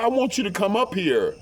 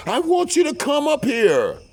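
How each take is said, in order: First: High-pitched imitated request; retold plea. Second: Very high, loud mock squeal; insistent plea. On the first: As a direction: lightly imitate her pleading, voice raised in pitch. Mistress asks him to come. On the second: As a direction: imitate her insisting, pitched way up and louder. Mistress's plea repeated, intensified.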